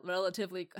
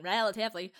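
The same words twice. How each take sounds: First: Said in the usual way. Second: "relatively" with Australian vowels; Australian accent. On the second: Shown as a demonstration. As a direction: slip into a mock Australian accent. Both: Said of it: "I almost went Australian".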